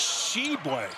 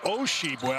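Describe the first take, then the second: First: The name starts directly with the 'sh' sound. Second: The name starts with an added 'O' sound. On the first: The speaker calls it right. "It's Sheboy" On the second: The speaker calls it wrong. "not Osheboy. I put a little Irish in there"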